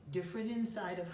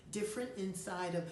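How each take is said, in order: Both takes have the same delivery.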